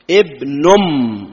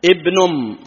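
First: ابنم stretched very slowly, each sound clear; drawn-out pronunciation. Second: Said in the usual way. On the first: Shown as a demonstration. (نطق ابنم ببطء شديد ومدّ واضح)

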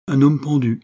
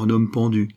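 First: HOMME PENDU louder and higher, falling at the end; emphatic repeat. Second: Said in the usual way. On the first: A narrator's reading. Conductor repeating "homme pendu" to Venture, louder and emphatic. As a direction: repeat "homme pendu" firmly for a listener who missed it. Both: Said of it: "répéta le conducteur".

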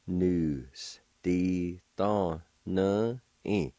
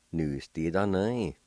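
First: "Nu. S. Di. Tho. Nu. I." slow, separated; syllable by syllable. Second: "Nu. S. Di. Tho. Nu. I." run together as one word; blended word demo. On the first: Teacher pronouncing word number two for learners, slowly in syllables. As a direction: leave a gap after every syllable. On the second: Teacher pronouncing word number two for learners, quickly joined up. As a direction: join all the syllables without pauses. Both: Shown as a demonstration. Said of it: "now I'll pronounce these words".

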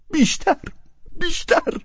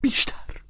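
First: A stammering cry of بیشتر. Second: Breathless whispered stammer; a faltering whisper of the word بیشتر. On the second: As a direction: barely get the word out, whispered. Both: A narrator's reading. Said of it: "با لکنت زبان ادامه داد".

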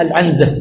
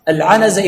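First: العنزة said "al-'anza", no vowel after n; silent-vowel nun. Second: العنزة said "al-'anaza", a after the n; vowelled nun. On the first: Teacher demonstrating the misreading, "al-'anza" with sukun on nun. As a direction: say العنزة as al-'AN-za. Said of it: "تسكين النون". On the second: Teacher giving the original hadith word, "al-'anaza" with vowelled nun. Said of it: "يعني تصحف". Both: Shown as a demonstration.

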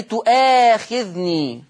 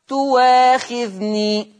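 First: Slow تؤاخذني with a glottal catch before the long aa; hamza pronounced. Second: Slow, drawn-out تواخذني with w in place of the hamza; hamza turned to waw. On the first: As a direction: draw out تؤاخذني, keeping the hamza after tu. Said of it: "بصوا للهمزة تؤا". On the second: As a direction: say تواخذني as tu-waa-khidh-nii, no glottal catch. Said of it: "الإبدال واوا مفتوحة". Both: Shown as a demonstration.

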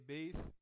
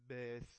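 First: "bath" with a long "ay" vowel, like "bayth", louder and higher; loud, raised wrong "bath" with an E sound; mispronounced bath. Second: "bath" with a short open A, no "ay" glide; correct bath. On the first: Retold or imitated. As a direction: imitate the mistake, "bath" said as "bayth". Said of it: "Bath خطأ". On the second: Shown as a demonstration. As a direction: say "bath" with the vowel of "cat". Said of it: "لازم bath من غير ايه".

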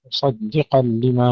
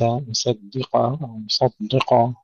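First: مصدقًا with thin D between heavy S and Q; thick sad, light dal, thick qaf in مصدقًا. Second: مصدقا with the letters' weights mixed up; faulty مصدقا, thinned S or thickened D; wrong heaviness. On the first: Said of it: "ننتبه إلى ترقيق الدال وتفخيم الصاد والقاف". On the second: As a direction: misplace thin and thick sounds in مصدقا. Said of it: "وليس". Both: Shown as a demonstration.

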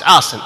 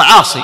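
First: "عاص" ending in -in; final ya replaced by tanween. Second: "عاصي" loud, ending in long ee; original final ya. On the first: Teacher giving the reduced form, "عاص" ending in -in. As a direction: say "عاص" as 'aasin, no long ee. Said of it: "لكن إيش عاص". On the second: Teacher giving the underlying word, "عاصي" with long final ee. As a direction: say "عاصي" as 'aasee. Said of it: "أصله عاصي". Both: Shown as a demonstration.

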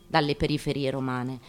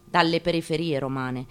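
The two takes are said the same way.

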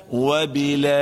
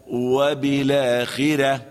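First: وبالآخرة sung with six-beat long vowel; chanted full madd. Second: وبالآخرة with short two-beat vowel; recited with short madd. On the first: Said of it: "بالطول والإشباع هكذا". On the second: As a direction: keep the long vowel short. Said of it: "يقرأ هكذا". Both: Shown as a demonstration.

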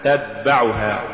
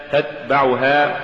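First: "تتبعها" with voiced d for the stopped t; ta becomes dal. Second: Said in the usual way. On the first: Shown as a demonstration. Teacher showing an error, "تتبعها" said with dal for ta. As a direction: voice the t before b in "تتبعها" into d. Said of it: "تقرأ لحنا". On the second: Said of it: "استبدال التاء بالدال".

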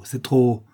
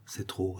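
First: Louder, insistent repeat; forceful burst of despair; anguished outburst. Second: Very soft, sinking voice; quiet, crushed admission; hushed despair. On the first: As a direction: cry out that you can bear no more. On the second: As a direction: let it drop, worn down by suffering. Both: A narrator's reading. Brigand can bear no more.

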